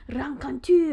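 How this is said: It is said with a French accent. The speaker calls it right. "If you said that in French"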